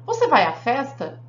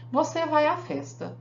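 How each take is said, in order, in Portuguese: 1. É dito com entonação de pergunta. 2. É dito como uma afirmação simples, em tom declarativo. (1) "virou uma pergunta" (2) "É uma declaração. Eu afirmei"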